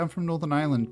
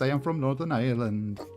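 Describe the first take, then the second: First: It is said in a plain, natural accent. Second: It is said in a put-on foreign accent.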